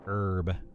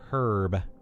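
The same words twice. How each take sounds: First: The word is said the American way. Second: The word is said the British way. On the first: "than herb" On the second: "the British pronunciation is uh, is more herb"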